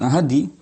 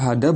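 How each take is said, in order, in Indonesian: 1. Kata itu berakhir dengan vokal 'i'. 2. Kata itu berakhir dengan vokal 'a'. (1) "bukan ahadi" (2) "kita baca ahada"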